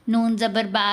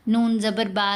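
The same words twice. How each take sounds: The two takes are said the same way.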